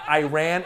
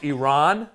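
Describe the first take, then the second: First: The first syllable does not sound like E. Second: The first syllable sounds like the letter E. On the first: The speaker calls it wrong. "it's not Iran" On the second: The speaker calls it right. "like the letter E and a guy named Ron"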